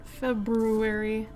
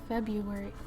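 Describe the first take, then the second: First: The first R sound is clearly pronounced. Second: The first R sound is left out. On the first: "No one actually enunciates that" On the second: "I think I say February. I don't say the R, the extra R"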